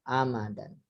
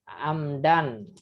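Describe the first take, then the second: First: A vowel is heard between m and d. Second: No vowel is heard between m and d. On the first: The speaker calls it right. "ini dibacanya amadan" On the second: The speaker calls it wrong. "bukan amdan"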